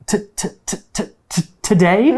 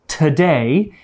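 First: The first sound is repeated in a stutter. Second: The word is said smoothly in one go. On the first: "it might come out like today" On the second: "when stutterers say the word today"

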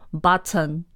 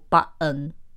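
First: The t sound is pronounced. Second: The t sound is dropped.

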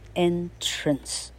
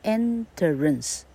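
First: The word is said with two syllables. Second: The word is said with three syllables. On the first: The speaker calls it right. "少了一节哈" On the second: The speaker calls it wrong. "而不是念作enterance"

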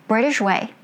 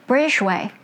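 No difference in how they are said.

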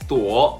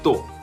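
First: The syllable dips low and then rises. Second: The syllable is short, light and unstressed. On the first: "本来的三声是什么？" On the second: "轻声呢，"

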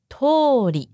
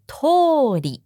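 The two takes are said the same way.

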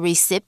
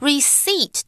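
First: The p sound is pronounced. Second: The p sound is silent. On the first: The speaker calls it wrong. "so you don't say receipt" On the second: The speaker calls it right. "它其中的P that's silent 是不发音的"

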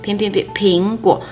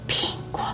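First: The word is said haltingly, not fluently. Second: The word is said in a hoarse, breathy voice. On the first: The speaker has a fluency problem. "不流畅的状况" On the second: The speaker has a voice problem. "沙哑气息声这样"

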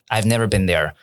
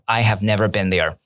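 First: I have is contracted into one syllable. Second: I have is said as two full words.

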